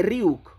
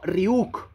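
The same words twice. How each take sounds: First: "Ryuk" said as it should be, without an added accent; correct pronunciation. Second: "Ryuk" with a misplaced accent, rising at the end; wrong pronunciation. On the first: Streamer corrects how his name is said, correct pronunciation. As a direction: correct them firmly on "Ryuk". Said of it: "se dice Ryuk". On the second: Streamer shows how his name is misread, mock wrong accent. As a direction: mimic the mistaken accent in "Ryuk". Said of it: "No hay ningún acento". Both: Shown as a demonstration.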